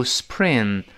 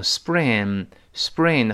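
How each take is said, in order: First: SPRING with a puffed p; SPRING with p left as a true p; wrong aspirated p. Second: SPRING pronounced like "sbring"; light unaspirated b sound after the s in SPRING; p softened to b. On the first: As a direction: show SPRING wrongly with a breathy p sound. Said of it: "不要读spring". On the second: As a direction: say SPRING with a gentle b for the p. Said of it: "后面轻轻的是b". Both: Shown as a demonstration.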